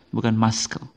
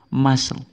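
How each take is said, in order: First: The middle C is pronounced as a K sound. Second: The middle C is silent, no K sound. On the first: The speaker calls it wrong. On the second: The speaker calls it right. "Jadi C-nya tidak dibaca"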